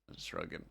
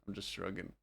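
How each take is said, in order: The two takes are said the same way.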